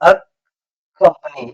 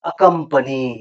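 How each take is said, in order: First: The word is split into separate parts. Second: The parts are joined into one word. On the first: "company ಇದು ಒಂದೇ ಹೇಳ್ರಿ ಮೊದಲ" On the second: "ಈಗ ಕೂಡ್ಸಿ ಹೇಳು"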